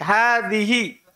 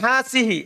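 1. Konsonan tengah itu 'th' bersuara yang lembut. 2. Konsonan tengah itu bunyi 's' mendesis. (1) "ujung lidah, ujung gigi, atas" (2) "Jadi bukan hasihi"

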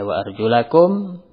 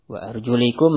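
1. Vokal setelah arjul adalah bunyi a. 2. Vokal setelah arjul adalah bunyi i. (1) "kalau dibaca wa arjulakum berarti dicuci" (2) "majrur diataf kepada uh, ru'usikum berarti diusap"

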